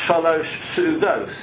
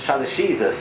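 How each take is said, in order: First: The two words are said separately and fully. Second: The two words are run together into one. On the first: The speaker calls it right. "Well, it's shalosh sudos" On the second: The speaker calls it wrong. "then they become colloquial with slang"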